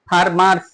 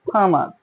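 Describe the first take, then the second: First: The r sound is pronounced in the word. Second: The r sound is left silent in the word. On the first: The speaker calls it wrong. "উচ্চারণ হবে ফার্মার্স না" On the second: The speaker calls it right. "কোথাও আর এর উচ্চারণ হচ্ছে না"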